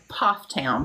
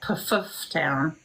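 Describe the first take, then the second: First: The first vowel is an open 'aw' sound. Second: The first vowel is a short 'uh' sound. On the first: This is how locals actually say it. The speaker calls it right. "it was Poff Town" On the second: This is how the spelling suggests it is said. The speaker calls it wrong. "but it looks like Puff Town"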